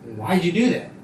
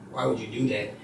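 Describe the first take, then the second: First: The question sounds intrigued and impressed. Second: The question sounds rude and disapproving. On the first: The person is fascinated by the choice. "if you can intrigue their eye and they're like, whoa" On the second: The person disapproves of the choice. "people would be hella rude"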